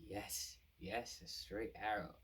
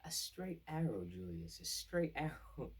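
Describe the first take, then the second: First: Slow dawning agreement; lightly voiced dawning realization; realizing. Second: Higher, louder, slow and knowing with a laugh; knowing, teasing repeat, pitched up and slow; sly repeated hint. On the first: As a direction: say it as the idea lands. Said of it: "he has an epiphany". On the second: Retold or imitated. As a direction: lean on it with a scheming chuckle.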